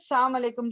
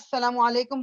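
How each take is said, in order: First: The greeting is rushed, with its opening sound dropped. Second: The greeting is said clearly, with every sound present. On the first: It wishes death on the listener. The speaker calls it wrong. "जल्दी में बोलते हुए" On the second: It wishes peace on the listener. The speaker calls it right. "मुंह क्लियर तरीके से"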